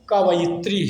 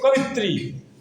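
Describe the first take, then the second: First: The word is said as ka-va-yi-tri, four syllables. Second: The word is said as ka-vi-tri, three syllables. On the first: The speaker calls it right. "इसका उच्चारण कवयित्री ही किया जाए" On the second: The speaker calls it wrong. "उच्चारण सही न करके"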